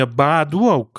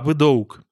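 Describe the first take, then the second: First: The first vowel is a full, open 'a'. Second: The first vowel is a short, reduced 'e'-like sound. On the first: The speaker calls it wrong. "не широкий «а»" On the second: The speaker calls it right. "что-то такое коротенькое, типа «э»"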